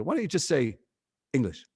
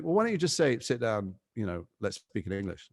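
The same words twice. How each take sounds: First: Mocking crew's retort. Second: Mock pleading. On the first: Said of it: "they go". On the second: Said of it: "it'd be like".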